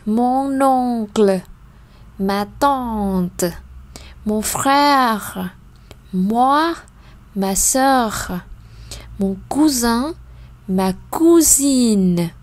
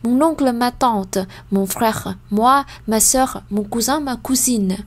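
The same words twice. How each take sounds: First: The list is read at a slow pace. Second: The list is read at a very fast pace. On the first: "Encore une fois" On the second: "Ou encore plus plus vite"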